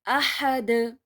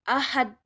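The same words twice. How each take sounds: First: The final consonant is said with a bounce. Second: The final consonant is said without a bounce. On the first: The speaker calls it right. "We have to say ahad" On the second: The speaker calls it wrong. "There is no bounce in ahad"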